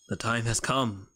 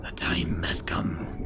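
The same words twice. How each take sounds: First: Said in the usual way. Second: Low, slow ominous whisper; dramatic whisper. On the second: Pretend. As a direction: intone it like a trailer. Dramatic build-up before final plan.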